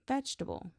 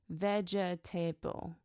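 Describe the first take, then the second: First: It is said quickly with syllables reduced. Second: Every syllable is pronounced separately and fully. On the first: The speaker calls it right. "natives say vegetable" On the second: The speaker calls it wrong. "he pronounced it every syllable"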